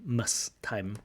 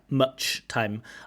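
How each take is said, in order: First: The first word ends with an s sound. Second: The first word ends with a ch sound. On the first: The speaker calls it wrong. "pronounces it as a s" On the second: The speaker calls it right. "phoneme ch. Ch"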